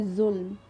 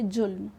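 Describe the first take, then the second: First: जुल्म said with a buzzing z, zulm; जुल्म read with the nukta, as za. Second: जुल्म said with a plain ja sound, jhulm; hard j at the start of जुल्म; जुल्म read with no nukta, as ja; without nukta. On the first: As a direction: start जुल्म with a z like zoo. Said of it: "क्योंकि नुक्ता लगा हुआ है". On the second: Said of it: "नुक्ता ना लगाएं". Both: Shown as a demonstration.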